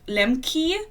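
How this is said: The name is said with an American pronunciation. This is how Americans say the name. "Americans keep pronouncing it Lemke"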